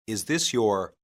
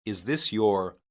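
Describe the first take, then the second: No difference in how they are said.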